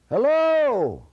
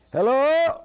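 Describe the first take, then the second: First: High, loud holler falling at the end; long-distance call with a falling tune; hollered hello. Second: High, loud holler rising at the end; long-distance call with a rising tune; hollered hello. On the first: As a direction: holler HELLO drawn out, high then dropping off. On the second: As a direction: holler HELLO up at a house, pitched high and lifting. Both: Acted. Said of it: "He hollered hello at the house".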